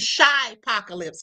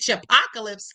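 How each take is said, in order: First: The word begins with the sound 'shy-a'. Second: The word begins with the sound 'chip'. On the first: The speaker calls it right. "it's supposed to be Shy Apocalypse" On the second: The speaker calls it wrong. "I said Chipocalypse"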